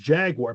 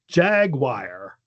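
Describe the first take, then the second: First: The word is said with a general American pronunciation. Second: The word is said with a Midwestern pronunciation. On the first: "the normal American one is Jaguar" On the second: "in the Midwest. Some people say Jaguar"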